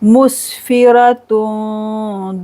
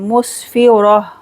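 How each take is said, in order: First: The word ends in -tun, joined onward. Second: The word ends in a stopped h sound. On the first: The reciter continues without pausing. "मिलाकर पढ़ेंगे तो इख्फा करेंगे" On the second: The reciter pauses on this word. "रुकेंगे तो हा साकिन हो जाएगा"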